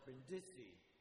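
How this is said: It is pronounced with an American pronunciation. The speaker calls it wrong.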